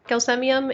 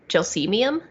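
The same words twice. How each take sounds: First: The word has a classical Latin-style pronunciation. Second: The word has a different, non-classical pronunciation. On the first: The speaker calls it wrong. "it's not Gelsemium" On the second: The speaker calls it right. "it's Gelsemium, which sounds fake"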